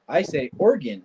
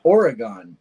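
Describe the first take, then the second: First: "Oregon" said in two quick syllables, ORE-gun; clipped ORE-gun; local Oregon. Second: "Oregon" said in three syllables, ending in gone; funny Oregon. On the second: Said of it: "funny when people say". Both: Shown as a demonstration.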